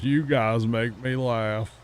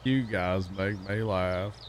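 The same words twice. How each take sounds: First: Slow, dragged-out stoner line; lazy stoned caller drawl. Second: Slow, lazy stoner drawl. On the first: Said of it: "stoner dude that would call in". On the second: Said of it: "You gotta sound like a stoned, like, redneck". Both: Retold or imitated.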